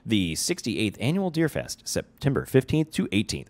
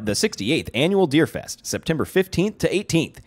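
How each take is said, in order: First: It is said in his ordinary speaking voice. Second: It is said in a put-on advertising announcer voice.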